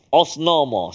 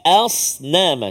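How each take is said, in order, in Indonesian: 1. Vokal pertama terdengar seperti o. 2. Vokal pertama terdengar seperti a. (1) "dia tak bunyi os" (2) "Jadi asnama"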